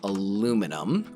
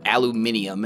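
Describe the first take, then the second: First: It has four syllables, American style. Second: It has five syllables, European style.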